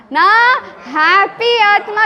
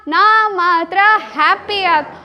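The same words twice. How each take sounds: First: Slow, emphatic call-out; ಜೋರಾಗಿ ಹೇಳಿ; say it loudly. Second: Said in the usual way. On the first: Shown as a demonstration. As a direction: proclaim it slowly, like a chant. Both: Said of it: "ಜೋರಾಗಿ ಹೇಳ್ರಲ್ಲ".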